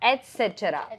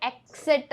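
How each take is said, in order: First: The word begins with an 'ets' sound. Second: The word begins with an 'eks' sound. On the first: The speaker calls it right. "ഇത് actually എറ്റ്സെട്ര ആണ്" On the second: The speaker calls it wrong. "എക്സ് എന്നുള്ള ഒരു sound നമ്മൾ വരുത്തും, പക്ഷെ അത് ആവശ്യമില്ല"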